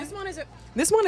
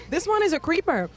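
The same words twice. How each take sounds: First: Muffled, high and fast into a cup; talking into a cup. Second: Said in the usual way. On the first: Real, not acted. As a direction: speak right into the cup. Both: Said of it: "I'm talking into the cup".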